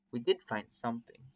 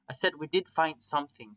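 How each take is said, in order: First: Said in the usual way. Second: "I said we did find something" higher and louder, insisting; insistent repeat. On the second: A narrator's reading. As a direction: repeat "did find something" more forcefully for someone who missed it. Repeats it after a "Huh?.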